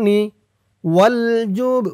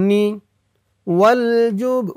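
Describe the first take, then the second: No difference in how they are said.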